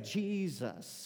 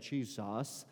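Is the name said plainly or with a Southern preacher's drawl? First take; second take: Southern drawl; plainly. First: It is drawn out with Southern preacher emphasis. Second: It is said plainly, without Southern swagger.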